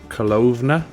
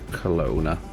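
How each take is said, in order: First: The name is said with a German-sounding pronunciation. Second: The name is said with a plain English pronunciation.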